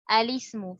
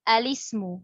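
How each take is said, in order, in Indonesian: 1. Kata ini dimulai dengan vokal pendek 'a'. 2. Kata ini dimulai dengan vokal pendek 'a'.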